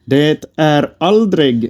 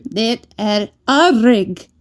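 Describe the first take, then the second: First: 'Det är aldrig' spoken slowly and clearly; 'aldrig' said slowly with a clear g; slow teaching Swedish. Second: 'Det är aldrig' repeated slowly by a learner; 'aldrig' said slowly with an English r; slow careful repeat. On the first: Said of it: "teaching the phrase". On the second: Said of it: "repeating after teacher". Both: Shown as a demonstration.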